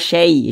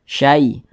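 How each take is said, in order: First: The vowel leans toward an e sound. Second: The vowel is a soft, clear ai sound. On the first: The speaker calls it wrong. "jangan sampai condong ke e. Jangan dibaca syai" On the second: The speaker calls it right. "Tapi dibaca syai"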